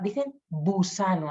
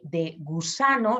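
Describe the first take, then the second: First: Busano, B in place of G; fronted G. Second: Said in the usual way. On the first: Shown as a demonstration. Therapist shows a child saying busano. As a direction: say busano for gusano. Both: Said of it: "en lugar de".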